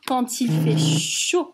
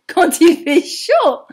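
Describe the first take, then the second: First: Voix basse et plate, sans élan; le dire sans énergie, d'une voix basse; grave et monotone. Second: Plus fort et plus aigu, plein d'entrain; avec enthousiasme. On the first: (phrase dite basse et plate avant la correction) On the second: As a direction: relancer la phrase avec éclat pour les enfants. (version reprise, forte et enjouée) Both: Shown as a demonstration. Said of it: "Oh, pardon".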